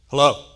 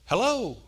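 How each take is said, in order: First: Hello is said in a curt, irritated tone. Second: Hello is said in a warm, friendly tone. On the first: The speaker calls it wrong. "it was the tone in which it was said" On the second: The speaker calls it right. "There's different ways you can say hello"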